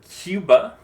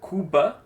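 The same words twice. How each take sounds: First: A y glide comes before the u. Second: The first vowel is a plain u. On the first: "we say Cuba" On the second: "Instead of saying uh, Cuba"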